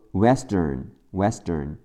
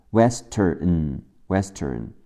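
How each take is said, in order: First: "Western" with a D for the T, like "wesdern"; T turned to D. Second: Said in the usual way. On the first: Shown as a demonstration. Teacher showing spoken English, "Western" with D for T. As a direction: soften the T of "Western" to D. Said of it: "West的特会变成的". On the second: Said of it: "最后加上字母N的发音".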